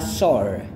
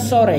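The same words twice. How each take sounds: First: The word is said with English sounds. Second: The word is read with Indonesian spelling sounds. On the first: The speaker calls it right. "cara bacanya adalah sore" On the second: The speaker calls it wrong. "Ini bukan sore ya"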